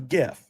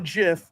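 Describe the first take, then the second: First: It starts with a hard G sound. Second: It starts with a soft J sound. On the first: The speaker calls it right. "It's graphics, not giraffics" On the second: The speaker calls it wrong. "It's not a GIF"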